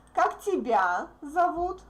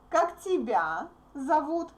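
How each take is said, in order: First: The stress is on тебя. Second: The stress is on тебя.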